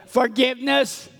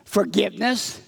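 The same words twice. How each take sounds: First: Raised-pitch call for the group to join in; prompting repeat-after-me. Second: Said in the usual way. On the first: Shown as a demonstration. Leader asks the children to help out, prompting call. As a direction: lead them in saying it, higher. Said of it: "Hey, help us out here". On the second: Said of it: "say this with me".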